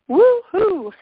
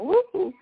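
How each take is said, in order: First: The cheer is loud and energetic. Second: The cheer is weak and quiet.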